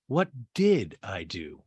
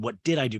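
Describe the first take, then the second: First: Slow question with "did" drawn out and stressed; stalling stress on DID. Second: Quicker question, lightly leaning on "did"; stalling stress on DID. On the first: Austin deciding whether to lie or tell the truth, stalling on "did". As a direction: stretch "did" slowly, as if buying time. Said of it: "You could say he said". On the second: Host quoting Austin's dodge, lighter stalling stress on "did". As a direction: repeat it at normal pace, stressing "did". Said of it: "'Cause he was like". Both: Retold or imitated.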